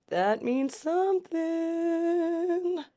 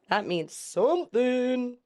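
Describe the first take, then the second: First: Much higher, very slow, SOMETHING held long; exaggerated drawn-out hint. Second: Slow, lifted "something"; drawn-out hint. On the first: Reactor hamming up a symbol clue, exaggerated drawn-out hint. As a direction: stretch SOMETHING right out on a high note. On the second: Reactor noting a symbol to remember, drawn-out hint. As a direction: stretch SOMETHING out slowly. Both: Shown as a demonstration.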